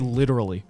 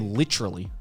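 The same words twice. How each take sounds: First: It is said with an American accent. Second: It is said with an Australian accent.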